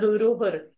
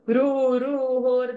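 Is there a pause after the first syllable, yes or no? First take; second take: no; yes. First: The word is said without any pause. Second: There is a pause after the first syllable. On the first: The vowel stays short. The speaker calls it right. "When short sounds come" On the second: The short vowel becomes long. The speaker calls it wrong. "when you pause, ... then you're making it dirgha"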